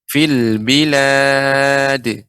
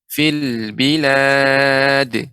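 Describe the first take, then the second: The two takes are said the same way.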